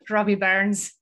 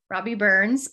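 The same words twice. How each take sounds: First: The name is said in a Scottish accent. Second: The name is said in a plain accent.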